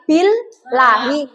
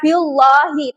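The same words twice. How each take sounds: First: The l is pronounced light and thin. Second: The l is pronounced heavy and thick. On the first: The speaker calls it right. "tapi billahi ... tidak lagi tebal" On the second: The speaker calls it wrong. "Bukan billahi"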